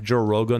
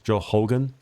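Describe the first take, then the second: First: The surname starts with an R sound. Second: The surname starts with an H sound.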